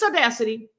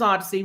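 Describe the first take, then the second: First: The name is said like the word audacity. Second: The name is said like the word odyssey. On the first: It is a deliberate, joking mispronunciation. "you're mispronouncing the name of that" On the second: It is the name as it is really said. "We know the name is Odyssey"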